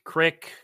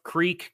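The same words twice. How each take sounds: First: CRICK with a short i; regional pronunciation. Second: CREEK with a long ee; standard pronunciation. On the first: Co-host giving accent examples, regional pronunciation CRICK. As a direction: say crick for creek, rhyming with brick. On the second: Co-host giving accent examples, standard pronunciation of CREEK. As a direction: say creek to rhyme with seek. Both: Shown as a demonstration. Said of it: "some people up here say crick".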